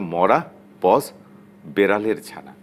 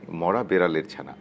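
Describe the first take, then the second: First: It has a pause after 'mora'. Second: It is said without a pause after 'mora'.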